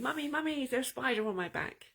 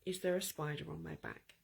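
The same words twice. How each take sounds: First: Higher, quick, mock panicked child calling for mum; mild mock panicked scream. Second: Softer, steady, calm question. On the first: Small boy running home to his mother, mock panicked. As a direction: play a scared kid running home crying out. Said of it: "it's screaming". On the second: Retold or imitated. Boy calmly asking his mother, no panic. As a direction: ask it as if nothing were wrong. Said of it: "I very calmly said to my mother".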